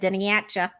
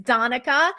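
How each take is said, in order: First: The name begins with a 'den' sound. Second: The name begins with a 'don' sound. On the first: The speaker calls it wrong. "I tried to pronounce it and said Deniatcha" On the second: The speaker calls it right. "but it's Donica"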